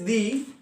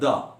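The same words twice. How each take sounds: First: It is pronounced as the before-vowel form. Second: It is pronounced as the before-consonant form. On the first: "Before vowels it is the" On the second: "before consonants it is uh, the"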